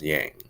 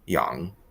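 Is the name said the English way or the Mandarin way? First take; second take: English; Mandarin. First: It is said with an English-style pronunciation. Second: It is said with a Mandarin pronunciation and tone. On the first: This is the common way people say the name. "usually pronounced uh, as Yang, uh, which is pretty normal" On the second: This is how the name is really said in Chinese. "her actual last name is uh, pronounced Yang"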